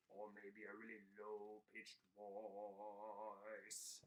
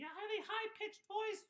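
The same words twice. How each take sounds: First: Much lower, slow and soft puppet voice; teacher demos a really low puppet voice; low-pitched voice. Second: Much higher squeaky puppet voice; teacher demos a really high puppet voice; high-pitched voice. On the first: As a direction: sink down low and drag it out. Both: Shown as a demonstration. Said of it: "trying on some different fun puppet voices".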